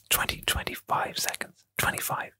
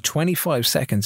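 First: Creepy breathless whisper; hushed, fully whispered aside. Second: Said in the usual way. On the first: Real, not acted. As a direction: whisper it close into the listener's ear. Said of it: "get really fucking creeped out when [name] starts whispering". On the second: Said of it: "when [name] starts whispering".

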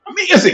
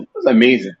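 First: Excited. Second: Said in the usual way. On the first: Real, not acted. Repeats amazing with more lift.

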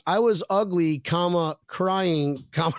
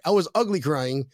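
First: "I was ugly, comma, crying, comma" with each comma said as a word; reading commas aloud. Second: Said in the usual way. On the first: Shown as a demonstration. Host misreading a viewer comment, speaking each comma aloud. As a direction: read the punctuation out, saying "comma" after "ugly" and after "crying". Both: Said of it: "There was no comma there".

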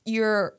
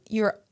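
No difference in how they are said.

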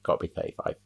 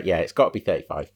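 First: Unvoiced whisper under the breath. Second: Said in the usual way. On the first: Shown as a demonstration. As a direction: drop to a whisper to yourself. Repeats the line, then whispers.

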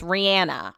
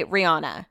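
First: "Rihanna" with a short flat A, ree-AN-a; others' pronunciation of Rihanna. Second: "Rihanna" with an open AH, ree-AH-na; own pronunciation of Rihanna. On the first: Host showing how people say "Rihanna", middle vowel as in cat. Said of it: "people are saying it's [name]". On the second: Host showing how they say "Rihanna", middle vowel AH. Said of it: "I say [name]". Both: Shown as a demonstration.

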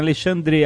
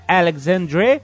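First: Alexandre said "a-le-SHAN-dre", x as sh; Portuguese name form. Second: Alexandre said "al-eg-ZAN-drei", x as gz, rising; anglicised reading. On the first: Shown as a demonstration. Host gives his real name, Portuguese Alexandre. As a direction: say Alexandre the Brazilian way. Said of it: "teve gente já que leu assim". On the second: Retold or imitated. Reader questions the host's name, anglicised Alexandre. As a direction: misread Alexandre with English sounds as a question. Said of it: "a pessoa leu o nome".

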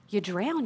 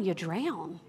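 First: Drown lifted with a rising tune; rising emphasis. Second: Drown dropped into a firm falling close; falling, final emphasis. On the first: Preacher warning the congregation, rising emphasis. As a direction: drown said like a question left hanging. Repeats the point for weight. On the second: Preacher driving the point home, falling finality. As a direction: drown settled down like a verdict. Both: Real, not acted.

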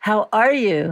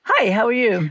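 First: "How ARE you?", with the weight on "are"; stress on ARE. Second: "Hi, how are you?" run together as a greeting; casual greeting intonation. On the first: Showing a sincere "How are you?" question, stress on "are". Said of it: "Always the way you say it". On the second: Showing a routine hello, "how are you" said as a casual greeting. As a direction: toss off "Hi, how are you?" lightly, no weight on "are". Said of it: "is gonna be different than". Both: Shown as a demonstration.

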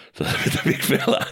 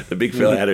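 First: Breathy laugh through the words. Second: Said in the usual way. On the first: Real, not acted. Laughing at the big fella's line.

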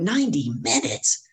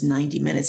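First: High, slow, rising question; incredulous echo. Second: Said in the usual way. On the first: Retold or imitated. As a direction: stretch it out in astonishment. Echoing the length in shock.

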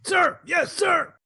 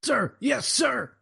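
First: Shouted high and loud recruit reply; barked sir yes sir. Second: High, timid recruit reply; barked sir yes sir. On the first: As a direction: sound off like a scared recruit. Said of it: "Much better". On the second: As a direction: answer like a nervous recruit. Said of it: "I can't hear you". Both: Pretend.

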